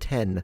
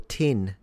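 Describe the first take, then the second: First: The word is said in a non-Kiwi accent. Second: The word is said in a Kiwi accent.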